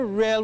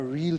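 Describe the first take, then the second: First: The word is said short, like 'rel'. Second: The word is said long, like 'reel'. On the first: There is a lot of it. "when we say real, we mean plenty" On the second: It is deep and substantial. "when we're speaking of deep things"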